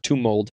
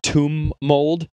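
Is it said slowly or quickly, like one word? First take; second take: quickly; slowly. First: The two words run together quickly as one. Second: The two words are said slowly and apart.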